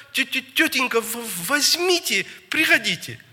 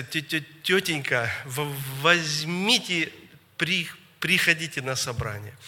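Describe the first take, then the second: First: High, pleading stammer; stuttered words pitched far up, as if through tears; tearful stutter. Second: Mild stammer on first syllables; imitated child's stutter at usual pitch. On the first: Retold or imitated. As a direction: imitate a crying child stammering out a plea. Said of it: "а он плачет, слёзы льются". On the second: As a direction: stumble over the word starts, drawing them out. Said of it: "и он так заикается".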